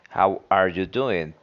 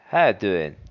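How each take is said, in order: First: Every word is said in full, including 'are'. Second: The words are reduced and 'are' is dropped.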